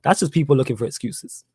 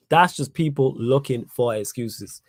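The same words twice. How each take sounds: First: Said in the usual way. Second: Drawn out, word by word; slow right down to drive the point home; deliberate, measured restatement; slow emphatic repeat. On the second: Real, not acted. Repeats the line slowly for emphasis.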